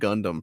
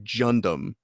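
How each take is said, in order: First: The word begins with a hard G sound. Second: The word begins with a J sound. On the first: "we have been mispronouncing Gundam for forty years" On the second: "it's really Jundam"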